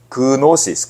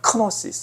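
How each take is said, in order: First: The word begins with a soft g sound. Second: The word begins with a strong k sound.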